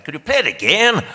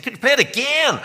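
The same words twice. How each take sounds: First: A rough attempt at a Northern Irish accent, pitched higher; a tentative stab at Northern Irish, raised and louder. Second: Attempted Northern Irish accent, pitched much higher; a rough Northern Irish voice, pitched well up. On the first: John asks to hear the tape again, in an attempted Northern Irish accent. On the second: John asks yet again in the edit suite, in a rough Northern Irish accent. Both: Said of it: "forgive me, I can't do the accent, but I'll try".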